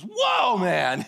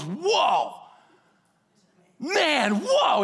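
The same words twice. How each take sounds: First: Adam naming Eve in awe; amazed whoa. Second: Awestruck, climbing high on the last whoa; Adam seeing Eve, jaw dropped; amazed whoa. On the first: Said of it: "It was". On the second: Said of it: "He goes". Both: Retold or imitated.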